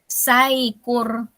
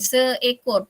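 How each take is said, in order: First: The word is pronounced as saikur. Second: The word is pronounced as seekor. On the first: The speaker calls it wrong. "dia bunyi saikur, dia tak bunyi seekor" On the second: The speaker calls it right. "imbuhan se kan, seekor"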